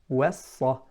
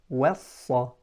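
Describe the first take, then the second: Both takes have the same delivery.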